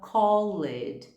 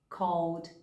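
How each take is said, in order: First: The ending is voiced as an extra syllable. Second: The ending adds no extra syllable. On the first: The speaker calls it wrong. "Ou a gente fala" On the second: The speaker calls it right. "na verdade a pronúncia é"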